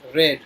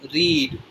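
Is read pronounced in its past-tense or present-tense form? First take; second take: past tense; present tense. First: It uses the past-tense pronunciation of read. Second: It uses the present-tense pronunciation of read. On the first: The action already happened. "In past tense you have to speak it like read" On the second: The action happens now or habitually. "in present tense you have to speak read"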